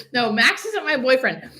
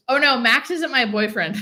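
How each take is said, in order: First: Said in the usual way. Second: Laughing it off, loud and amused. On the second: Real, not acted. Laughing to chat that Max isn't her boyfriend, amused. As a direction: blurt the denial through a laugh.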